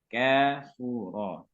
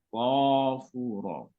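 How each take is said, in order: First: The k sound is light and thin. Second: The k sound is heavy and thick. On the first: The speaker calls it right. "Tapi dibaca tipis ya" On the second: The speaker calls it wrong. "kafnya dibaca tebal ya"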